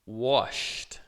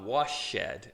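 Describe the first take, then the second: First: The ending is a short T sound. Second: The ending is not a short T sound. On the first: The speaker calls it right. "como se fosse um T" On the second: The speaker calls it wrong. "Eu não vou falar washed"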